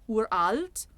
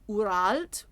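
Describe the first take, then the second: Both takes have the same delivery.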